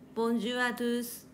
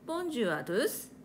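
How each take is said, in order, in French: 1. La hauteur reste plate et monotone du début à la fin. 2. La hauteur monte et descend, mais elle est mal placée. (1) "Cela devient plat et monotone" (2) "même s'il y a de l'intonation, ça sonne très bizarre"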